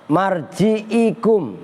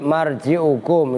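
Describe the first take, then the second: First: The ain is followed by an i vowel. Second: The ain is followed by a u vowel. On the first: The speaker calls it wrong. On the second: The speaker calls it right.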